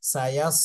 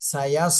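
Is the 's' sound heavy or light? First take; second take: heavy; heavy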